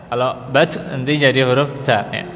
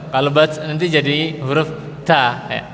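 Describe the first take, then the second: The two takes are said the same way.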